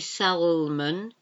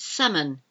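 First: The L sound is pronounced in the word. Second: The L sound is silent in the word. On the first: The speaker calls it wrong. "You don't say salmon" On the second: The speaker calls it right. "It's salmon"

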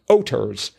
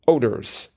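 First: The middle consonant sounds like a clear T. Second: The middle consonant sounds like a soft D. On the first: The speaker calls it right. "let me pronounce that a little bit better" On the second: The speaker calls it wrong. "let me pronounce that a little bit better"

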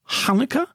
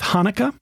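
First: It begins with a rough h from the throat. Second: It begins with a plain, light h sound. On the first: The speaker calls it right. "adding a little breathiness in the back of your throat, a little guttural sound" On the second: The speaker calls it wrong. "if you want to stick with Hanukkah, that's just fine"

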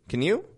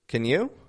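First: The word can is quick with a reduced vowel. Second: The word can has a full vowel. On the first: "Super quick, dropping the A out, just a quick can" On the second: "we're going to pronounce the full word can"

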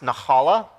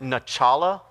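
First: The middle consonant is a throaty h sound. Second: The middle consonant is a 'ch' as in nachos. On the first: The speaker calls it right. "It's pronounced nahala. You have to kind of get that like sound" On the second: The speaker calls it wrong. "I pronounced it nachala one time because I think I just love nachos"

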